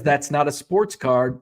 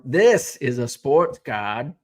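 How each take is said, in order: First: Said in the usual way. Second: Slow, hammed-up bad Australian accent; shitty Australian accent. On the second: Shown as a demonstration. Host answering a viewer's comment, in a bad Australian accent. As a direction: drawl out "This is a sports card" in a bad Australian accent. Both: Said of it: "In my shitty Australian accent".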